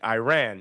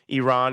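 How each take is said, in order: First: The first vowel is a hard 'eye' sound. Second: The first vowel is a soft 'ee' sound.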